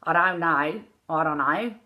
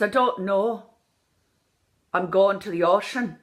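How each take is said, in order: First: Australian "I don't know", sliding vowels; Australian accent. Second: Irish pure O in "don't know" and "ocean"; Irish accent. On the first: Coach contrasting with Irish, Australian accent. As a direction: slur it with Australian diphthongs. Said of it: "like Australian". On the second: Coach showing the correct take, Irish accent. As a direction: keep a still-lipped Irish O. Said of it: "So I look like a ventriloquist". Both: Shown as a demonstration.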